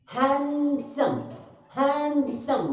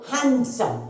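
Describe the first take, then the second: First: handsome drawn out slowly as hand, then सम; broken into syllables. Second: Said in the usual way. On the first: Shown as a demonstration. Teacher showing students the syllable break, slowly split. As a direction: split handsome into two separate beats, hand and सम. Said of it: "break हो रहा है". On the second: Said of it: "handsome को एक बार में बोल रहे हैं क्या".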